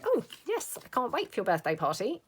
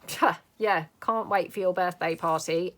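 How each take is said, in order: First: It sounds sincerely excited and happy. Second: It sounds sarcastic and unenthusiastic.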